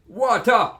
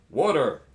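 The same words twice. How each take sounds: First: It is said in a Jamaican accent. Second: It is said in an American accent. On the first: "Jamaicans say water" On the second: "Americans say, some of them, water. It's not a T, it's a D"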